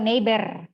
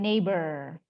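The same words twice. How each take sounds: First: The final R is not English-like. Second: The final R is English-like. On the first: The speaker calls it wrong. "R-nya bukan neighbor" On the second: The speaker calls it right. "tapi neighbor. Neighbor. R bule gitu"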